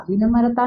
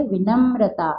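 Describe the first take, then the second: First: विनम्रता with an extra a, "vi-nama-rataa"; rejected example, विनम्रता as "vinamarataa"; mispronounced विनम्रता. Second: विनम्रता with a joined mr, "vi-namra-taa"; teacher's correction, विनम्रता as "vinamrataa"; correct pronunciation. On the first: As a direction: break the cluster in विनम्रता, m-a-r. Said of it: "विनम्रता नहीं". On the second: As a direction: model विनम्रता with the tight mr cluster. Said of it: "क्या पढ़ेंगे हम इसको". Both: Shown as a demonstration.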